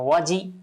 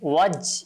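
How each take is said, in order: First: The j is followed by a full i vowel. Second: The j is cut off without any bounce. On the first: "আবার একেবারে জিমে জের হয় এরকম করব না" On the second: "ওয়াজ এভাবে না"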